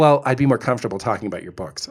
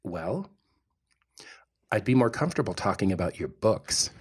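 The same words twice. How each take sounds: First: Quick mock quote. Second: Cool brush-off. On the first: Husband mocking his date's line, fast and dismissive. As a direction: toss off her line dismissively. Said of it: "and she says". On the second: Retold or imitated. Husband quoting his date's rejection, soft and cool. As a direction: let him down gently and coolly. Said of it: "Oh, I didn't say it like that".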